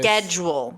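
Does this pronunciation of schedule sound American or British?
American. It is said the American way. This is how it is expected to be said. The speaker calls it right. "it should be schedule"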